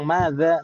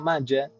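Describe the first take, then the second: First: The middle consonant is a 'dh' sound. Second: The middle consonant is a 'j' sound. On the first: "Bilang madza" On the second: "madza itu bilangnya maja"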